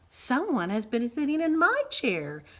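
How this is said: It is said in a medium-pitched voice. "cried Mama Bear in her middle-sized voice"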